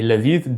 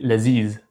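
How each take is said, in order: First: The word ends with a dh sound. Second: The word ends with a z sound. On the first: This is the classical form. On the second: This is the Levantine form.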